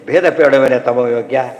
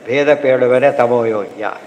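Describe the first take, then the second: First: It is said with a questioning tone. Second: It is said as a plain statement. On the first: It is implied that such a person does not deserve darkness. "ಇನ್ನೊಂದು ರೀತಿ ಓದು, ... ಪ್ರಶ್ನೆ ಹಾಕ್ಕೊಟ್ಟು" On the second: One who speaks of difference deserves darkness. "Pallavi ಅದಕ್ಕೆ"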